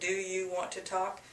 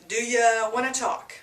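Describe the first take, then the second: First: The word 'you' is said in full. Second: The word 'you' is reduced to 'ya'. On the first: "Instead of" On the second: "do you changes to do ya"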